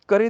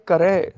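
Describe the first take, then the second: First: ਕਰੇ with narrow e; wrong ending. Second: ਕਰੈ with open ai; correct ending. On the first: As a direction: close ਕਰੇ on e. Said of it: "ਦੀ ਬਜਾਏ". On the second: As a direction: widen the last vowel of ਕਰੈ to ai. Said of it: "ਕਰੇ ਦੀ ਬਜਾਏ". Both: Shown as a demonstration.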